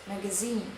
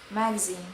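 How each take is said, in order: First: The stress is on the last syllable. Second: The stress is on the first syllable. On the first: This is the British form. "in British it's in the last syllable" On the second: This is the American form. "in American the stress is in the first syllable"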